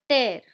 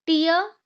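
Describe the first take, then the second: First: टेयर said as "tare", rhyming with air; tear as in rip. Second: टीयर said as "teer", rhyming with ear; tear as in crying. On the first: Teacher contrasting the two words, saying टेयर as "tare". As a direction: say टेयर like ripping paper. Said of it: "और ये टेयर है". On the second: Teacher contrasting the two words, saying टीयर as "teer". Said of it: "टीयर मतलब कि crying". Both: Shown as a demonstration.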